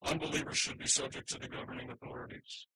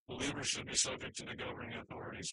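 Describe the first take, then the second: First: Preacher punching Unbelievers in the verse; stress on UNBELIEVERS. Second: Believers leaned on, the rest run quickly; quick follow-up leaning on the word Believers; preacher contrasting Believers with the line before; stress on BELIEVERS. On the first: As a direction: lean on the word Unbelievers to set it against believers. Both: Shown as a demonstration. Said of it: "This is referring to believers, to unbelievers".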